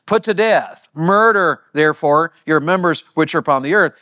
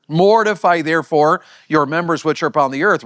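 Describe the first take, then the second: First: "Put to death" and "Murder" hit hard; forceful paraphrase. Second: Said in the usual way. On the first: Shown as a demonstration. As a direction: punch "Murder" as the key word. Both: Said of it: "Read it like this".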